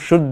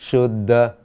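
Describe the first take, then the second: First: The cluster ends in a plain unaspirated d. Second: The cluster ends in a breathy aspirated dh. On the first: The speaker calls it wrong. "कभी कभार हम शुद्ध बोलते हैं ... यह गलत है" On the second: The speaker calls it right. "हमें लिखना है शुद्ध"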